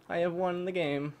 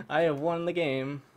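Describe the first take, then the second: No difference in how they are said.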